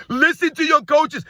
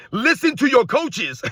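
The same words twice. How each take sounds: First: Louder and higher, slow and pointed; emphatic repeat. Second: Said in the usual way. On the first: Acted. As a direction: hammer the advice home, word by word. Quoting Jordan, then repeating louder.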